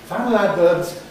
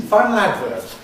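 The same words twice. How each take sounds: The two takes are said the same way.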